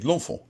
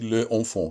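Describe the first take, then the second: First: The vowel of 'le' is dropped and linked. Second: The vowel of 'le' is pronounced separately. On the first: The speaker calls it right. "you say l'enfant" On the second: The speaker calls it wrong. "you don't say le enfant"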